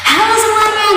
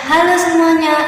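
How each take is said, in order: First: It is said in a very cheerful voice. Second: It is said in a flat, dull voice.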